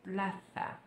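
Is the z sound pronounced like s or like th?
th. The z is said with the tongue between teeth. This is how it is said in Spain. "a letra seta é pronunciada com a língua entre os dentes"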